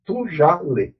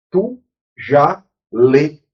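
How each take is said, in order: First: Said in the usual way. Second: Tu já lê drawn out word by word, very slowly; each word of Tu já lê stretched and separated; slow, deliberate. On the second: Shown as a demonstration. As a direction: spell out Tu já lê slowly like to a class.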